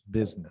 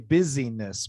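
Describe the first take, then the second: First: The word is said with two syllables. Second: The word is said with three syllables. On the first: The speaker calls it right. "Business, two syllables" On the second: The speaker calls it wrong. "the tendency is to want to say busyness"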